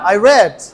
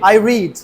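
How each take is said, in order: First: The vowel in 'read' is short, like 'red'. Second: The vowel in 'read' is long, like 'reed'. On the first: The reading happened in the past. "আমি পড়েছিলাম।" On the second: The reading happens habitually now. "আমি পড়ি।"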